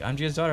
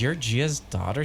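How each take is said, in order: First: "I'm Gia's daughter" pitched up as a firm answer; confirming. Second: "You're Gia's daughter?" rising at the end; questioning. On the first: Woman answering the dreamer, "Gia's daughter" as a statement. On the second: Dreamer checking with the woman, "Gia's daughter" rising in question. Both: Acted.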